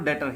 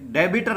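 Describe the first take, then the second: First: The b sound is left out entirely. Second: The b sound is pronounced in the middle. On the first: The speaker calls it right. "इसमें B silent रहता है, डेटर ही हम बोलते हैं" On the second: The speaker calls it wrong. "ये डेबिटर नहीं बोलते इसको"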